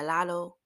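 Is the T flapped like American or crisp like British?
American. The T is flapped, American style.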